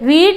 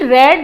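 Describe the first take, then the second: First: The vowel is long, like 'reed'. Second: The vowel is short, like 'red'. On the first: It is the present form. "तीनों form same होती हैं, उनका pronunciation अलग अलग होता है" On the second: It is the past form. "रेड बोलते हैं उसको"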